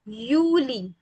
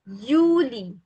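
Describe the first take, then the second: First: The word begins with a Y sound. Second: The same.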